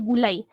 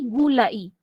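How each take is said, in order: First: The final 'ai' glides together in one syllable. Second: The final 'a' and 'i' are split apart. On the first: It means a dish cooked in coconut milk. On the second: It means coated in syrup.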